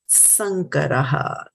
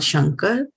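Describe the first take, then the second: First: The word begins with an 's' sound. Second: The word begins with an 'sh' sound. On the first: The speaker calls it right. "it is Varna Sankaraha" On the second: The speaker calls it wrong. "It is not Shankar"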